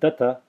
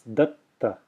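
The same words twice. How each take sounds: First: A single t with no pause. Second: The first t is held in a pause. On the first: The speaker calls it wrong. "It's not datta" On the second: The speaker calls it right. "There's a pause there, effectively, because I'm extending the first t"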